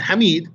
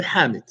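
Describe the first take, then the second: First: "Hamid" with a long second syllable, ha-MEED; wrong name pronunciation. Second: "Hamid" stressed on the first syllable, HAA-mid; long first vowel in "Hamid", falling away; corrected name pronunciation. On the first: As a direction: stretch and lift the end of "Hamid". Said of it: "Not Hamid". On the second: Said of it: "but Hamid". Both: Shown as a demonstration.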